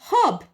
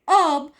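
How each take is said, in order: First: The word begins with an audible h sound. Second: The word begins with a vowel, no h. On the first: "In India, as well as in the British accent, we do say herb. H is not silent" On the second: "for American people, H is silent, so they go with the pronunciation herb"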